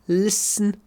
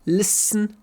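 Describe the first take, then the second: Both takes have the same delivery.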